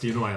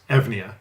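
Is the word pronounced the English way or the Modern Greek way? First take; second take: English; Modern Greek. First: It is said like you-noy-a, without a v. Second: It is said with a v sound, like Evnia. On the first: "in English, it is pronounced Eunoia" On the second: "in modern Greek, you would pronounce those letters Evnia"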